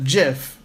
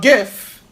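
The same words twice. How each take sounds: First: The word begins with a j sound. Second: The word begins with a hard g sound. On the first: The speaker calls it wrong. "is not said GIF. GIF is peanut butter, J I F" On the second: The speaker calls it right. "a GIF, G I F"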